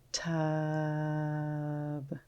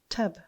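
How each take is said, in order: First: The sounds are stretched out slowly one by one. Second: The sounds are blended quickly into one word. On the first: "Let's tap and stretch" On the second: "Say it fast like a word"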